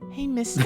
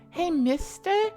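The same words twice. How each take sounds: First: It is said in a more normal voice. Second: It is said in Polly's character voice.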